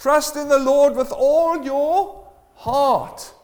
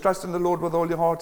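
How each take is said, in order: First: It is read at a slower, unhurried pace. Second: It is read at a quick, rushed pace.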